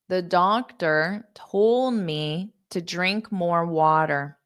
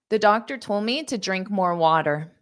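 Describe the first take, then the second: First: The sentence is spoken at a slow pace. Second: The sentence is spoken at a fast pace. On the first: "I'll say it slowly" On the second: "I will say it fast"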